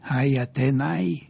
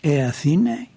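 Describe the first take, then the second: First: The first word sounds 'ai', with a 't' sound. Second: The first word sounds 'e', with a 'th' sound. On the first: This is the scholarly pronunciation of the ancient language. "με την ερασμιακή προφορά" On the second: This is how the language is read today. "εδώ είναι «Ε Αθήνε»"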